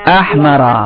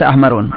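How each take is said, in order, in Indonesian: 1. Kata ini tanpa akhiran tambahan. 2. Kata ini berakhiran bunyi tambahan -un. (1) "هذا هو الصحيح" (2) "ليس أحمرون"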